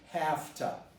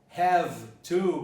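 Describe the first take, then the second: First: It is reduced to a quick 'hafta' with f. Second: Both words are said fully with a v sound.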